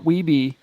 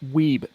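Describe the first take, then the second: First: The name is said as two syllables. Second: The name is said as one syllable. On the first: The speaker calls it wrong. "not Weeby in Canada" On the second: The speaker calls it right. "It's pronounced Weeb"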